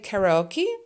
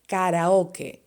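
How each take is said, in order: First: It is pronounced with an English accent. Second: It is pronounced with a Spanish accent. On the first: "In English, you would say karaoke" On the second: "in Spanish, you would say karaoke"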